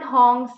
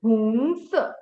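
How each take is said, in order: First: HONGS with an open o, like English "hong"; mispronounced HONGS. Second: HONGS with an oo sound, like "hoong-suh"; correct HONGS vowel. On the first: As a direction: say HONGS with an aw vowel. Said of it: "It's not hongs". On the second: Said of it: "it's hongs". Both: Shown as a demonstration.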